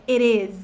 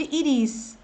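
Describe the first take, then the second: First: "it is" as "ih-riz", tapped and lax; short English vowels. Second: "it is" mispronounced as "ee-rees"; wrong vowels. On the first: Teacher corrects the mistake, "it is" with short vowels. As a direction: relax both vowels in "it is" and tap the t. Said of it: "é it is". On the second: Teacher warns learners off "ee-rees", "it is" with overly tense vowels. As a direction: give "it is" long Portuguese i vowels. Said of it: "Nada de". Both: Shown as a demonstration.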